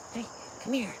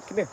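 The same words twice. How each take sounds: First: High, soft sing-song call to a dog; high soft pet-calling voice; coaxing dog call. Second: Said in the usual way. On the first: Real, not acted. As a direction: coax the dog over sweetly in a high voice.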